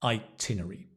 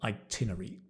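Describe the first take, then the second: Both takes have the same delivery.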